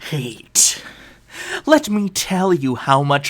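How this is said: It is read in a put-on character voice. "I gotta do this in a voice"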